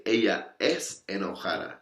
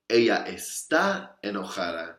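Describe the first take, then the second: First: Es given the weight, set apart from está; stress on es. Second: Está given the weight, set apart from es; stress on está. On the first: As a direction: hit the word es to show the difference. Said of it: "I'm saying she's always angry". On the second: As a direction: hit the word está to show the difference. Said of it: "I'm simply saying that she's angry today". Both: Shown as a demonstration.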